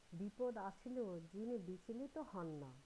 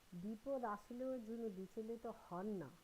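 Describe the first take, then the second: No difference in how they are said.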